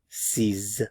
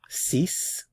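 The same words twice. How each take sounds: First: The word ends with a voiced z sound. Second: The word ends with a clear s sound. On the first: The number comes before a word starting with a vowel. "before a vowel sound" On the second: The number is said on its own when counting. "If it's just a number that you're counting"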